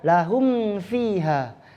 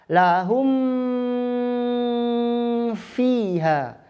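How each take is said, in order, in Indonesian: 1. Frasa itu diucapkan cepat. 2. Frasa itu diucapkan pelan. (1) "Kalau cepatnya" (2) "Pelan gitu ya"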